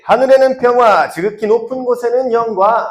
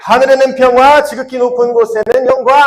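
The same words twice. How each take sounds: First: High, measured call to repeat; lead-in for repeating. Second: High, loud rallying recitation; louder praise. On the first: Teacher has the group repeat the verse, high measured lead-in. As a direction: lead the recitation in a high, projected voice. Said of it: "선생님 따라 해볼게요". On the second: Teacher retries the verse as if Jesus is here, loud praise. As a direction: proclaim it loudly as if to Jesus present. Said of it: "예수님 여기 계신다고 생각하고". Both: Shown as a demonstration.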